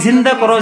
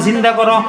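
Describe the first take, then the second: The two takes are said the same way.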